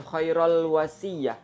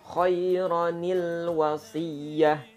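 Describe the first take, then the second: First: The first word ends in 'rul' before wasiyah. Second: The first word ends in 'ronil' before wasiyah. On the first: The speaker calls it wrong. "bukan ... keliru" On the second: The speaker calls it right. "Jadi dibaca nil"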